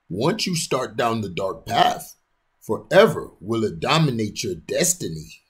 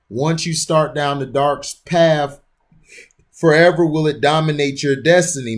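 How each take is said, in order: First: It is said in a put-on character voice. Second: It is said in the speaker's ordinary voice.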